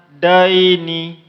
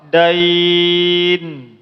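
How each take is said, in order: First: The word ends with a final vowel sound. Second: The word ends on a consonant sound. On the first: The reading continues into the next word. "Kalau dibaca daini maka itu dinamakan harful lain" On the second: The reader stops at this word. "Tapi kalau dia wakaf"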